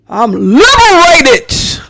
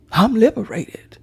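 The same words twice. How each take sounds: First: Slow, loud and high, drawing out I'm liberated; proud declaration. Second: Quiet echo. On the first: Answering critics who call her a feminist, slow loud proclamation. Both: Shown as a demonstration.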